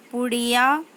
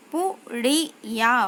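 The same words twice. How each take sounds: First: Said in the usual way. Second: पुड़िया read slowly, syllables apart. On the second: Shown as a demonstration. Teacher slowly sounds out पुड़िया for pupils. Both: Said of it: "शब्द पढ़ेंगे".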